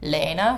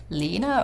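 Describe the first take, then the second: First: "Lena" said as LAY-na; an ay sound in the first syllable of "Lena"; LAY-na pronunciation. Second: "Lena" said as LEE-na; long ee in the first syllable of "Lena"; LEE-na pronunciation. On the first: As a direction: say "Lena" with the vowel of day. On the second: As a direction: say "Lena" to rhyme with Tina. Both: Shown as a demonstration. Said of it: "But whenever people say".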